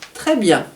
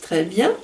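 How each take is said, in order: First: It is said firmly with affirmative endings. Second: It is said lightly with lifted endings. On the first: It keeps the horse focused and serious. "intonations affirmatives" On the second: It feels lighter and more playful to the horse. "c'est beaucoup plus léger"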